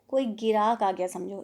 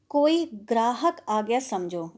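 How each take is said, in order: First: The word is slurred into girak, as if mouth-full. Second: The word grahak is pronounced clearly and in full. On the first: An uneducated man talks with paan in his mouth. "इसको वो क्या कह रहा है" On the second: This is the standard form of the sentence. "उसका उच्चारण कैसा हो जाता है"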